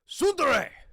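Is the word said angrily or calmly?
angrily. It is said angrily.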